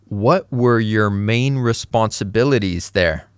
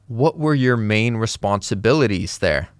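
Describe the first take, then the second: The two takes are said the same way.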